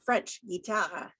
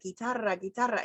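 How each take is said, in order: First: "guitarra" with no trill, slow; "guitarra" said without rolling the R; slow "guitarra" with a flat English R; unrolled R. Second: "guitarra" with a trilled Spanish R; Spanish "guitarra" with a rolling R; rolled R demo. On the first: Retold or imitated. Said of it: "he'd be like". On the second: Shown as a demonstration. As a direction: roll the R in "guitarra". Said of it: "I'd be like".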